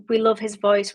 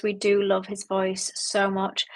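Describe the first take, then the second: First: Said in the usual way. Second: Slower, gushing We do love his voice so much; stress on do. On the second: Real, not acted. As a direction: do leaned on, slow and fond. Emphatic repeat with stressed do.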